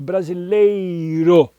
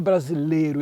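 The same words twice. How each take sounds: First: The 'ei' is said as a full diphthong. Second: The 'ei' is reduced to a plain vowel. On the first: The speaker calls it right. "tem o i aí no meio" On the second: The speaker calls it wrong. "não é brasileiro"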